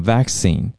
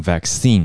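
First: Vaccine with stress on the first syllable, VAC-cine; British vaccine, first syllable stressed. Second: Vaccine with stress on the last syllable, vac-CINE; American vaccine, second syllable stressed. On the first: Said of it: "重音放在前面". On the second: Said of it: "重音放在后面嘛". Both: Shown as a demonstration.

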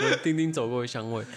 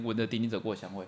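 First: 闻丁丁走过的香味 read softer, fighting back a laugh; trying to keep a straight face; storyteller barely holding in laughter; stifled laugh. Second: 闻着丁丁走过的香味 said softly and straight, no laugh; deadpan restating. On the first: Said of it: "讲不下去了". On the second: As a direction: keep it dry and quiet. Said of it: "我重述他的内容". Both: Real, not acted.

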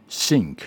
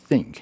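First: "think" pronounced "sink", s replacing th; "think" with tongue behind the teeth, as "sink"; wrong TH. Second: "think" with tongue between the teeth, unvoiced th; careful dental th starting "think"; correct TH. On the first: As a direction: demonstrate the common mistake, hissed s at the start of "think". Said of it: "很多人会念错误". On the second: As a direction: demonstrate "think" with a true th. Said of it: "如果我们念正确的话". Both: Shown as a demonstration.

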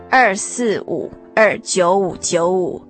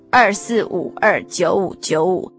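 Both takes have the same delivery.

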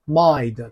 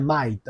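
First: "mind" with a clearly sounded n before d; demonstrated "mind", nasal before the final d. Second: "mind" said as "mide", without the n; mispronounced "mind", vowel straight into d; missing n. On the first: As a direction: let "mind" hum through the n. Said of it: "有鼻音吼". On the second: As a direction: drop the nasal from "mind". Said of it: "它不念mind". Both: Shown as a demonstration.

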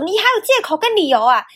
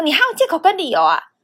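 First: Higher, louder sneering teacher voice; mocking teacher sneer. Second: Higher, louder sneer, falling at the end; mocking teacher sneer. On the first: Imitating the teacher who mocks every excuse, sneering. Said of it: "他就会说". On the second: Teacher repeating his usual line at her, sneering. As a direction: parrot the teacher's stock line. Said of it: "完完全全的S O P照着演".

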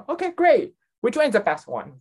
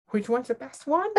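First: Imitated enthusiasm, jumping higher on "great"; eager customer. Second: High, rising disbelief on the edge of laughter; incredulous echo. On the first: Customer shown the shelf asks for advice, eager. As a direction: chirp it like a keen shopper. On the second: Retold or imitated. Clerk thrown by customer's question, incredulous echo.

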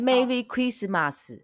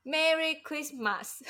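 First: Put-on Japanese accent. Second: Slow, heavy Japanese-style Merry Christmas; Merry Christmas 的马斯发得很重; Japanese-accented English. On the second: Retold or imitated. (日本腔的英文) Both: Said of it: "马斯就发的音发的很重".

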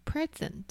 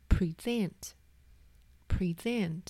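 First: "present" with the first syllable stressed. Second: "present" with the second syllable stressed, pre-SENT. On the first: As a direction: hit the front of "present", noun style: PRE-sent. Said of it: "把重音放在前面第一个音节". (把"present"的重音放在第一个音节) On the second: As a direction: say "present" as the verb, weight on SENT. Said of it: "重音放在第二音节". (把"present"的重音放在第二音节) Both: Shown as a demonstration.

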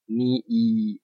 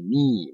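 First: Ni一 as two separate syllables; wrong split. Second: Ni held as one long nii. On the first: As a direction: break ni and 一 apart. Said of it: "我们并不会念作". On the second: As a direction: pull ni out long. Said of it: "我们会念". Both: Shown as a demonstration.

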